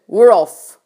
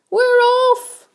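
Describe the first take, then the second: First: Loud, punchy announcement; triumphant shout. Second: Very high-pitched echoing cheer; excited cry. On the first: Centipede announces to everyone, loud triumphant shout. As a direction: shout it loud, pitched just above usual. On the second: Others echo the centipede, high excited cry. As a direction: squeal it like an excited crowd. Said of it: "the others cried". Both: A narrator's reading.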